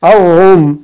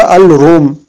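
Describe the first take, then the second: First: Al-rum with the l silent and r lengthened; doubled r. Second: Al-rum with the l sounded; unassimilated lam. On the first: Teacher giving the correct reading, "Al-rum" with double r and no l. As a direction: turn the l of "Al-rum" into a long r. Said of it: "on ne dit pas al-rum". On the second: Teacher warning learners off the mistake, audible l in "al-rum". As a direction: say "al-rum" with a clear l before r. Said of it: "on ne dit pas". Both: Shown as a demonstration.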